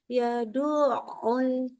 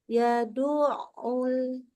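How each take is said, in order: No difference in how they are said.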